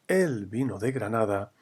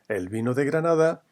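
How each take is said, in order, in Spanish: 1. La primera palabra el es tónica. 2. La primera palabra el es átona.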